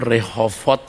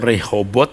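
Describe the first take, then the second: First: The consonant before the last syllable is v. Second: The consonant before the last syllable is b. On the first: The speaker calls it right. "Rehovot sebenarnya karena tidak ada" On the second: The speaker calls it wrong. "Kalau Rehobot"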